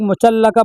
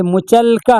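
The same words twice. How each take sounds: First: मुचल्लका with a doubled l and an added vowel; four-syllable मुचल्लका, quoting a common misreading; others' misreading. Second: मुचलका with a single l closing the middle syllable; slow, careful मुचलका in three syllables; correct reading. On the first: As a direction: say मुचल्लका as mu-chal-la-ka. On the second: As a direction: say मुचलका as mu-chal-ka, no vowel after the l. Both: Shown as a demonstration. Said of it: "कुछ लोग मुचल्लका पढ़ते हैं".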